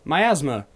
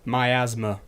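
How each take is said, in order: First: The word is said as mi-AS-ma. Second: The same.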